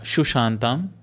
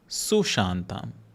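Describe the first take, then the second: First: The word begins with a 'sh' sound. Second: The word begins with an 's' sound. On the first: The speaker calls it wrong. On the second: The speaker calls it right.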